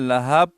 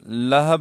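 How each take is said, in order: First: The second vowel is drawn out long. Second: Both vowels are short. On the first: The speaker calls it wrong. "या लहाब पढ़ते हैं" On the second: The speaker calls it right. "और लहब है"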